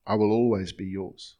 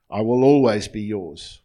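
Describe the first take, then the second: First: Said in the usual way. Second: Always be yours proclaimed much louder for the room to repeat; slow, loud dictation. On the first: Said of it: "I'm gonna say it by myself". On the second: Shown as a demonstration. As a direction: call out I will always be yours so all can echo. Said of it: "I'm gonna say it slowly and just repeat after me".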